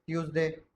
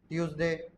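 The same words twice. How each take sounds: The two takes are said the same way.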